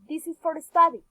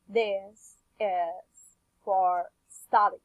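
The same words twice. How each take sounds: First: The short words are reduced between long syllables. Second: Every word is fully pronounced with even weight. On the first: The speaker calls it right. "Some are simply reduced" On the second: The speaker calls it wrong. "This isn't a natural pronunciation. S and for are in full pronunciation"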